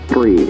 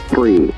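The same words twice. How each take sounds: The two takes are said the same way.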